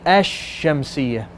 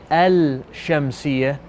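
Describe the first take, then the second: First: The L merges into a doubled sh sound. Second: The L sound is pronounced before the sh. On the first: The speaker calls it right. "You say ash-shamsiyah" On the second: The speaker calls it wrong. "You don't say the lam. You don't say al-shamsiyah"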